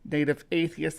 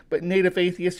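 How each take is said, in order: First: Said in the usual way. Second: Playful emphatic repeat of the name Native Atheist; name said again with more push. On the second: Shown as a demonstration. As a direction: give the name an emphatic second go. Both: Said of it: "Sometimes I say your name twice".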